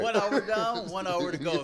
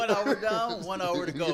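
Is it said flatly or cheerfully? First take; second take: cheerfully; cheerfully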